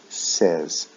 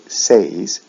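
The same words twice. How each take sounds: First: "says" with a short eh, like "sez". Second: "says" drawn out to rhyme with "days"; wrong long vowel. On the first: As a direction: say "says" to rhyme with "fez". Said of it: "short E, eh sound". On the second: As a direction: say "says" as say plus z. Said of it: "we don't say says". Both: Shown as a demonstration.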